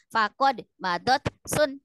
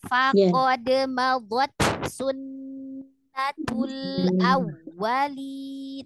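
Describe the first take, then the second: First: The words are broken by a stop after each. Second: The words flow together slowly without stopping. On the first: The speaker calls it wrong. "itu berhenti semua, gak boleh" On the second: The speaker calls it right. "Pelan-pelan, coba dengarkan"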